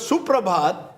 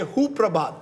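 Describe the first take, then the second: First: The word begins with an s sound. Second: The word begins with an h sound. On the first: The speaker calls it wrong. "instead of Suprabhat" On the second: The speaker calls it right. "I say Huprabhat"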